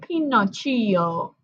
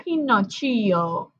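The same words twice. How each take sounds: First: It is said with an Italian accent. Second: The same.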